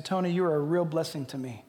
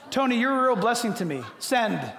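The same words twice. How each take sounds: First: Said in the usual way. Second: Dictating to phone. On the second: Shown as a demonstration. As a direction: spell it out to the phone so it understands. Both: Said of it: "verbally, and I sent it".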